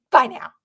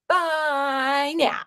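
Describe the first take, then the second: First: Said in the usual way. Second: Drawn-out playful bye now, stretching now; sing-song bye. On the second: Pretend. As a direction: sing the farewell in a cutesy voice.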